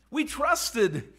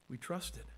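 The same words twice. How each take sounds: First: Disappointed disciple. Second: Much softer, sinking disappointment; discouraged, deflated. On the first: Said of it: "Do you hear it in his voice". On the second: Cleopas sighs out his lost trust, soft and deflated. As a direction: let the hope drain out. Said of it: "the disappointment and discouragement". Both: Acted.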